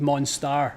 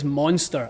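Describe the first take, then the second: First: The second syllable sounds like 'star'. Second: The second syllable sounds like 'ster'. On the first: The speaker calls it right. "I think it's Monstar" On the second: The speaker calls it wrong. "I don't think it's Monster"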